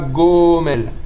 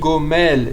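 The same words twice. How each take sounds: First: The stress is on the first syllable. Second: The stress is on the last syllable. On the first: The speaker calls it wrong. "et pas Gomel" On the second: The speaker calls it right. "c'est Millera. Ça veut dire que on dit Gomel"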